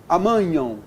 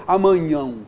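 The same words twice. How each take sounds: The two takes are said the same way.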